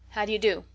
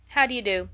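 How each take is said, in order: First: Mildly sulky greeting. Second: Lightly careless greeting. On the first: Scolded boy greeting his visiting cousins, mildly sulky. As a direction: greet with a touch of sullenness. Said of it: "in a sulky voice". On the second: Sister replying to her brother's late hello, careless. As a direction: toss off the greeting with little care. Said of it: "said Lily carelessly". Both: A narrator's reading.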